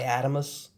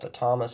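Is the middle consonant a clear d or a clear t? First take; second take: d; t. First: The middle consonant is a d sound. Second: The middle consonant is a clear t sound. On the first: Some other people say it this way. "Some people say Adamus" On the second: This is the speaker's preferred pronunciation. "I would say it's pronounced Atomus"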